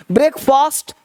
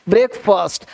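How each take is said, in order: First: "ब्रेकफास्ट" with long aa, higher pitch; wrong pronunciation. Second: "ब्रेकफास्ट" with short uh in the last syllable; correct pronunciation. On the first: Teacher contrasts the mistake, "ब्रेकफास्ट" with long aa. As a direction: say "ब्रेकफास्ट" like "brek-faast", held up. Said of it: "तो ब्रेकफास्ट नहीं". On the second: Teacher models it for repetition, "ब्रेकफास्ट" ending in short "fust". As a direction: say "ब्रेकफास्ट" like "brek-fust", falling. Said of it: "क्या बोलना है". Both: Shown as a demonstration.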